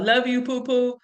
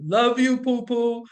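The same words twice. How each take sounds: First: Said in the usual way. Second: Deep voice. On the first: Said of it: "now they do it on their own". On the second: Shown as a demonstration. Mom showing her boys a masculine way to say it, deep voice. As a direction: put on a mock deep, manly voice. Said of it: "I would say it in my deep voice".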